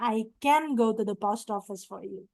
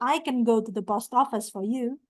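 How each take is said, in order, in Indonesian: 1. Can diucapkan dalam bentuk penuh dan jelas. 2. Can diucapkan tereduksi, cukup cepat. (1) "kalau kita mau buat strong pronunciation" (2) "bacanya agak cepet ya, itu can-nya dibaca ken"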